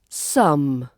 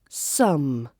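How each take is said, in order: Both takes have the same delivery.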